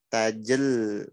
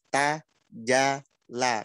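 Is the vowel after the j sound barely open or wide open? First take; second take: barely open; wide open. First: The mouth barely opens, so the vowel is clipped. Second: The mouth opens wide, giving a full open vowel. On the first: The speaker calls it wrong. "kalau dari tengah lidah nggak dibuka, langsung masuk ke lam" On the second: The speaker calls it right. "Harusnya mangap-mangap"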